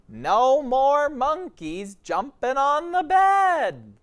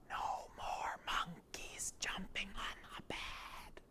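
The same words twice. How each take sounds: First: It is said in a normal speaking voice. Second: It is said in a loud whisper.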